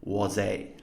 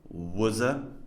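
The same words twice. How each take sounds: First: The vowels are said fully and clearly. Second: The vowels are reduced to weak schwas. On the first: The speaker calls it wrong. "the full unreduced forms" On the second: The speaker calls it right. "these schwas"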